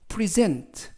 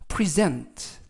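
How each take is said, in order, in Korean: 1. 두 번째 음절에 강세가 있어요. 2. 두 번째 음절에 강세가 있어요.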